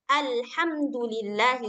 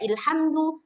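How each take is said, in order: First: The word begins with the vowel a. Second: The word begins with the vowel i. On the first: The speaker calls it right. "harus senantiasa berbaris atas" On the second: The speaker calls it wrong. "Nggak dibaca ilhamdu"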